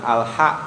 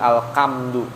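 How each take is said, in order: First: The consonant after 'al' is a breathy h. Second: The consonant after 'al' is a harsh k. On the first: The speaker calls it right. "bukan al-ha" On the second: The speaker calls it wrong. "tapi al-kamdu. Nah, itu kan enggak sesuai dengan makharijil huruf"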